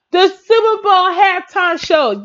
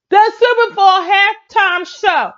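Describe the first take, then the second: First: Slow, drawn-out title read; announcer voice. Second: Slow, higher show-title announcement; announcer voice. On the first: Host repeating the halftime show title, slow announcement. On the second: Host announcing the halftime show title slowly. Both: Shown as a demonstration. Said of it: "the last title for music is".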